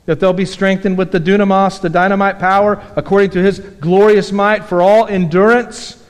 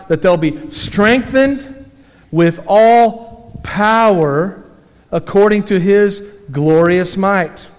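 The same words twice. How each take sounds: First: Said in the usual way. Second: Slow, deliberate reading of the verse; slow scripture reading. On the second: Shown as a demonstration. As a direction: draw out each phrase of the verse.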